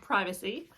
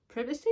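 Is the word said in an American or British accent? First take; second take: American; British. First: It is said in an American accent. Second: It is said in a British accent. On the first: "what we would say" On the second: "they would say"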